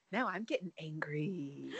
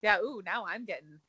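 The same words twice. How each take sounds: First: Softer, breathy whispered threat; hushed joking whisper; mock whisper. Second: Said in the usual way. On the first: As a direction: whisper it like a secret anger.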